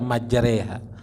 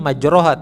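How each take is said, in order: First: The vowel after r leans toward e. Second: The vowel after r is an open a. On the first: It follows the required reading tradition. The speaker calls it right. "harus dibaca majreha. Itu namanya imalah" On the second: It follows the written spelling. The speaker calls it wrong. "Tulisannya majroha"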